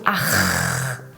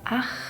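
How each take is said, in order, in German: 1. Der hintere Kehllaut ist übertrieben und stimmhaft. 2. Der hintere Kehllaut ist stimmlos, ohne Schwingung. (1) "ein bisschen übertriebener aussprichst, dann gelangst du zum R-Laut" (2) "anstatt Ach"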